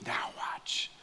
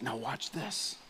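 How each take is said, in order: First: Breathy whisper, "Now watch." with no voice at all. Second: Softly voiced guide, a murmured "Now watch this."; quiet safari guide pointing something out; hushed guide. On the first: Retold or imitated. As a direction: whisper it as the lions creep to the bank. Guide whispering before lion hunt. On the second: Safari guide hushing the group.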